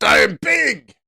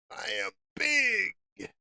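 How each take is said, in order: First: High, shouted declaration; loud boast. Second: High, soft, drawn-out echo; hushed boast. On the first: Trader hyping himself up to trade big, loud boast. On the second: Trader echoing his own catchphrase, hushed boast. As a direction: stretch it out slowly, high and small. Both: Acted.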